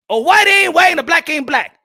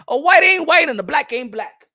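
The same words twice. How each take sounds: First: Louder, higher repeat; punchy chant of the line; shouted slogan. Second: Said in the usual way. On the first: Real, not acted. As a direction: shout the slogan back at them. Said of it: "slogan said twice, shouted repeat". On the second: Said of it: "slogan said twice, first take".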